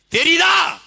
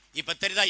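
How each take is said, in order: First: Very high, loud one-word bellow; shouted demand. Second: Said in the usual way. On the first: Real, not acted. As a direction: blast the question at the crowd. Shouted repeat of his question. (ஆவேசமாகக் கத்திக் கேள்)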